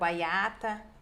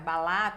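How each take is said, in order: First: The middle consonant is a y glide. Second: The middle consonant is an l sound. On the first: "eles fazem" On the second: "eles fazem"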